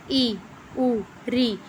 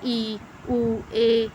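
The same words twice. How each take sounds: First: ਈ and ਊ clipped short, said quickly; quick short ਈ and ਊ, each said in an instant; short vowels demo. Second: Held long ਈ and ਊ, twice the length; long vowels demo. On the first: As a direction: snap out ਈ, ਊ, ਰੀ as brief short vowels. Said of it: "example ਦਿੱਤੀ ਆ". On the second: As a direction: stretch ਈ, ਊ, ਏ to show long vowels. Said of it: "example ਦੇ ਤੌਰ 'ਤੇ". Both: Shown as a demonstration.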